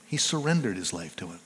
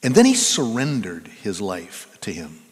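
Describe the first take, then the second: First: Softer, faster repeat of the line; quieter quick echo. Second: Said in the usual way. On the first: Acted. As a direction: let it fall away quickly, hushed.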